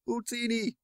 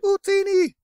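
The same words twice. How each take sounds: First: It is said flatly, without much energy. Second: It is said with emphatic, committed energy.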